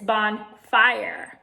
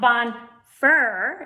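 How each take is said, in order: First: The vowel in the second syllable is long. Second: The vowel in the second syllable is short. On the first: The speaker calls it right. "it makes that I into a long vowel" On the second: The speaker calls it wrong. "it's not bonfire"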